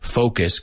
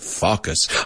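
First: The word is said with a standard pronunciation. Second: The word is said with an Irish-sounding vowel. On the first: The speaker calls it right. "Y si no te sale focus" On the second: The speaker calls it wrong. "It almost sounds like with an Irish accent"

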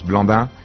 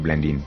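First: The surname is said with a French pronunciation. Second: The surname is said with a Spanish pronunciation.

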